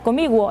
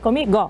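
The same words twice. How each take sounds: First: The g is followed by a 'u' glide. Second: The g is said plainly without a glide. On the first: The speaker calls it wrong. "Não é comigo" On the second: The speaker calls it right. "é comigo"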